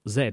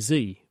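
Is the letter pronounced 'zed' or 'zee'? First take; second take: zed; zee. First: The letter is said the British way, 'zed'. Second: The letter is said the American way, 'zee'.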